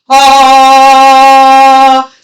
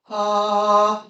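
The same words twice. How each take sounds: First: The sound is said loudly. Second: The sound is said quietly. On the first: The speaker calls it right. "do that exercise with volume" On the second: The speaker calls it wrong. "not to do it quietly"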